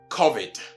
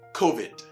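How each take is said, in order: First: The first vowel sounds like in 'cough'. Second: The first vowel sounds like in 'go'. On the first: The speaker calls it wrong. "they erroneously relate it to the word cough" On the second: The speaker calls it right. "but what?"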